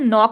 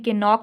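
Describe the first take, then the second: First: The word starts with an n sound. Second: The k sound is pronounced at the start. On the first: The speaker calls it right. "इसको हम नॉक बोलते हैं" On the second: The speaker calls it wrong. "के नॉक नहीं बोलते"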